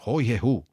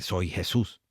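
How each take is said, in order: First: The first word begins with a breathy h sound. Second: The first word begins with a clear s sound. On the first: "Lo mismo pasa con el jejeo" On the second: "en vez de"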